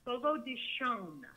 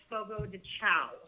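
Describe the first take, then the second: First: The last word sounds like 'shon'. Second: The last word sounds like 'chow'. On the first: The speaker calls it right. "It is pronounced Fogo de Shon" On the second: The speaker calls it wrong. "Everybody always pronounces it Fogo de Chao"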